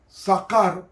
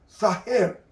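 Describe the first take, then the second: First: The middle consonant is a hard k sound. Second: The middle consonant is a throaty h sound. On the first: The speaker calls it wrong. "se translitera sacar" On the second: The speaker calls it right. "pero se pronuncia saher, porque ahí la K suena como J"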